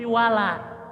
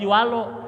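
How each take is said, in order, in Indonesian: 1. Vokal 'la' terdengar terbuka dan jernih. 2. Vokal 'la' terdengar dalam dan ditarik ke belakang.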